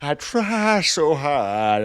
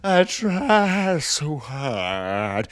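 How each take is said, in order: First: Drawn-out cartoon dad voice; repeating the line as Peter Griffin, slow and loud. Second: Peter Griffin voice, slow and drawn out; slow Peter Griffin impression, louder. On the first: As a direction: draw each word out like Peter Griffin. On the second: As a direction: stretch it out like the cartoon dad. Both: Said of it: "why did I say that like Peter Griffin?".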